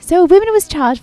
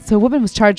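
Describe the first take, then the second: First: It is said in a British accent. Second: It is said without a British accent.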